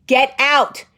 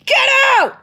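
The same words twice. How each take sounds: First: Firm, louder, higher order; retold yell. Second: Very high, loud comic scream; full-out yell. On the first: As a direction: order him out with a raised voice. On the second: Retold or imitated. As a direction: shriek it to drive him out. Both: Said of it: "in the middle of me yelling".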